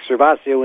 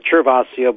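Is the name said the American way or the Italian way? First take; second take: American; Italian. First: The name is said with an American pronunciation. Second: The name is said with a southern Italian pronunciation. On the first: This is how the name is said in the States. "here in the States, Servacio is perfect" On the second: This is how the name is said in southern Italy. "in the south of Italy, they might prefer Cervasio"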